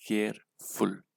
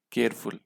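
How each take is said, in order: First: "careful" split slowly into care and फुल; "careful" in two separate beats, care, फुल; syllable by syllable. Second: Said in the usual way. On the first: Shown as a demonstration. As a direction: count out both syllables of "careful" with a gap. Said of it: "दो syllable का". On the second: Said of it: "careful बोलने में मुझे कितने syllable".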